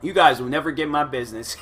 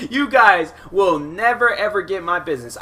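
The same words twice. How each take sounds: First: Said in the usual way. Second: Mock vow. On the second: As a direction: swear it off in a hammed-up laugh. Repeated louder, slower, laughing.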